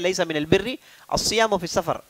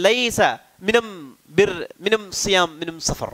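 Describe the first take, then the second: First: The article is pronounced with an 'l' sound. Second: The article is pronounced with an 'm' sound.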